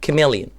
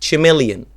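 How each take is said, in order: First: The word begins with a k sound. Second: The word begins with a ch sound. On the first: The speaker calls it right. "لا هي chameleon" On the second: The speaker calls it wrong. "غلطة شائعة جدا الناس بتقولها chameleon"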